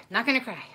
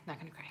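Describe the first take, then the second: First: Holding back tears. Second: Much softer, barely voiced; softly telling herself not to cry, choked up; fighting tears. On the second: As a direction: murmur it to yourself, holding back tears. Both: Real, not acted.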